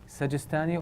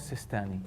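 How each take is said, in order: First: The name has a 'j' sound in it. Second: The name has no 'j' sound in it. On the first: "they pronounce it in two ways" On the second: "they pronounce it in two ways"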